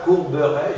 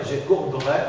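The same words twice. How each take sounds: First: Courberai as "cour-be-rai", three syllables; mute E kept. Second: Courberai as "cour-brai", two syllables; mute E dropped. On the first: Teacher contrasts forms for student, courberai with E articulated. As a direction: sound the E after the b in courberai. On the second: Teacher contrasts forms for student, courberai with E eliminated. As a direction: drop the E, run b into r in courberai. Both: Shown as a demonstration. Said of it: "je pourrais éliminer".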